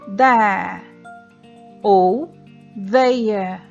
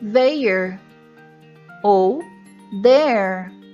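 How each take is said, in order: First: It is said with a British accent. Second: It is said with an American accent.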